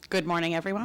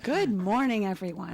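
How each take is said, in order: First: It is said in a plain, ordinary way. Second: It is said with loud, forced enthusiasm.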